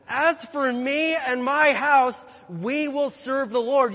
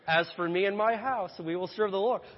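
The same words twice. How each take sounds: First: It is said in a bold, angry tone. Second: It is said in a light, casual tone.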